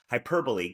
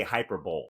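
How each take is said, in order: First: Hyperbole as hy-PER-bo-lee, four syllables ending in lee; careful pronunciation. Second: Hyperbole said as HY-per-bowl, like Super Bowl; mispronounced word. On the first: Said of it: "I have to think about it". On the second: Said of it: "if I don't think about it". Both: Shown as a demonstration.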